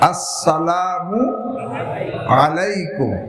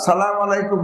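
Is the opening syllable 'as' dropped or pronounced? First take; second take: pronounced; dropped. First: Every syllable is pronounced clearly and fully. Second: The opening syllable is dropped and clipped. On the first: The speaker calls it right. "আসসালামু মু স্পষ্ট হবে" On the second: The speaker calls it wrong. "সালাম আলাইকুম না"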